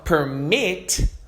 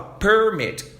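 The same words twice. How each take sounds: First: The stress is on the second syllable. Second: The stress is on the first syllable. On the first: It is the verb meaning to allow. "se eu estou dando ênfase no final" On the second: It names a document giving permission. "dando ênfase aqui, ó, no começo"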